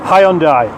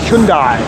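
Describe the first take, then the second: First: It uses the familiar anglicised pronunciation. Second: It uses the official Korean-style pronunciation. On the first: This is how people in this country always said it. "That's how we pronounced it" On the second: This is how the advertisements said it should be said. "the advertisements came along and pronounced it Hyundai"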